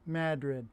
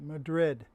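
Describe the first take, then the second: First: Said the local North Country way. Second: Said the widely used standard way. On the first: This is how locals say the town's name. "up in the North Country, they pronounce it" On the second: This is how most people say the name. "The rest of the world pronounces it"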